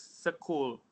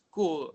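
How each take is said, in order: First: It is said with Indonesian letter sounds. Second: It is said with standard English sounds.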